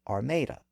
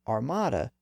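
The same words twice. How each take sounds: First: The stressed vowel is not an 'ah' sound. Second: The stressed vowel is an open 'ah' sound. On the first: This is the older pronunciation from earlier centuries. "was once pronounced" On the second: This is the present-day standard pronunciation. "That reversion back to ah has also occurred"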